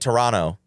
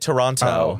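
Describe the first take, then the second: First: The second t is dropped in the word. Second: Every t in the word is clearly pronounced. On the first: "They're like" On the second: "When I enunciate, I get yelled at. I said, like"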